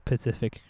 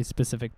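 First: "specific" with the S dropped, like Pacific; "specific" pronounced puh-SIF-ik. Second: Said in the usual way. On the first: Shown as a demonstration. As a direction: turn "specific" into "Pacific", like the ocean.

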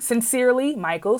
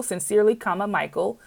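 First: Said in the usual way. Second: "comma" said aloud and hit as the key word; teacher dictating, spoken punctuation "comma" stressed. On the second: Shown as a demonstration. Teacher shows the class where the comma goes, stressing "comma".

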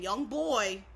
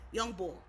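First: Put-on "boy" drawn out slowly with its full oy glide; slow, spelled-out "boy", ending on oy; standard boy. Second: Put-on "bull" said as "bawl" in Philly "young bull"; Philly-accented "bull", quick, with an aw vowel. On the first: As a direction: say "young boy" slowly and clearly, no L. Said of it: "We're saying young boy". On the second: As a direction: say "bull" like boy ending in an L. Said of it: "with an accent". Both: Shown as a demonstration.

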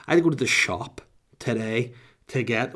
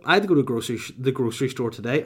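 First: Said in the usual way. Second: Put-on slipping into an American accent. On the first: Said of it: "I just became American". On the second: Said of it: "Oh, whoa, I just became American".

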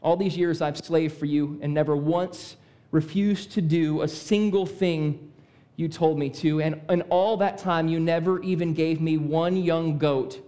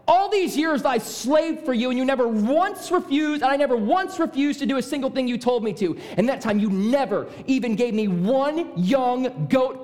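First: Restrained resentment, voice kept low; measured complaint with held-back anger; less angry. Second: High, heated tirade; very angry. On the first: Older brother complaining to his father in a first reading, less angry. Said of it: "first time I read that, I didn't read it as angry". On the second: Older brother raging at his father to prove a point, very angry. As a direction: let the resentment burst out, pitched up. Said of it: "as angry as the second time". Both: Acted.

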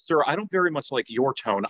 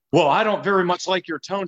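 First: Dry, flat mirror of his complaint; deadpan throwback. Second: Higher, huffy, prissy objection; mock-offended caller, pitched up; offended complainer. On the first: Retold or imitated. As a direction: hand his words right back to him. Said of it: "She goes". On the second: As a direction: play the wounded caller. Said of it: "And he goes".

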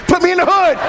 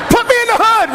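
First: Fast chuckling aside with a laugh; tossing off the joke through a laugh; amused at being sent to the inner city. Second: Much higher, louder comic punchline; repeating the joke for the crowd, high and loud. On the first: Joking about his parish assignment. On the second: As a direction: belt the joke line out. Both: Real, not acted.

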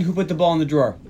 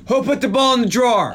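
First: Said in the usual way. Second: Higher, mock-accusing question; acted-out demand. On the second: Podcaster replaying the scene's best line, mock demanding. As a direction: re-enact the question, pitched up.

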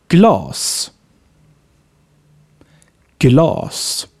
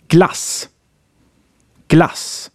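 First: Glass as 'glaas', with a long dark back vowel. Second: Glass with a brief, open front 'a'; short A. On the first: Teacher giving examples for the long A, drawn-out glass. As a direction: hold the 'ah' in glass long, far back. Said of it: "For the long A". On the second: Teacher giving examples for the short A, short-vowel glass. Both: Shown as a demonstration.

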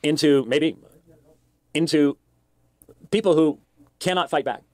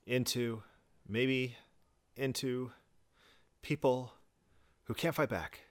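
First: Halting delivery. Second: A hint of a mocking halting echo. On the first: Real, not acted. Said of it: "he's so punctuated". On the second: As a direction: echo him word by word, quietly mocking.

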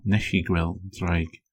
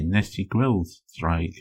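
First: "Nes i gweld draig" slow, "Nes" like nesh and "gweld" as weld with no g; the other dialect form. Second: "Nes i gweld draig" slow, with a hard g in "gweld"; one dialect form. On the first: Teacher giving the second dialect's way of saying "Nes i gweld draig". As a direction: drop the g: "gweld" becomes weld. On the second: Teacher showing one dialect's way of saying "Nes i gweld draig". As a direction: say "gweld" as gwelt, keeping the g. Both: Shown as a demonstration. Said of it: "depending on your dialect".

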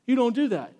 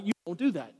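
First: "You don't do that" said higher and louder, as a stern warning. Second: Said in the usual way. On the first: Shown as a demonstration. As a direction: press it like a red flag. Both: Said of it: "It would be like massive red flags".

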